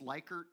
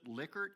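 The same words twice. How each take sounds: First: The name is said the commonly heard way. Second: The name is said the namesake's own way.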